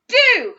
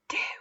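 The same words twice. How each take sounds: First: The word is shouted very loudly. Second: The word is whispered very quietly. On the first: "Let's shout it loudly" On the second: "Let's whisper it really quietly"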